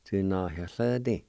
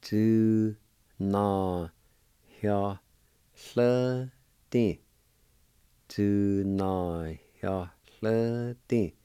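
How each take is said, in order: First: Said in the usual way. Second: Do, na, hyo, le, di as long, separate syllables. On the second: Shown as a demonstration. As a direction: pause after each of Do, na, hyo, le, di. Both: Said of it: "it'll be pronounced like this".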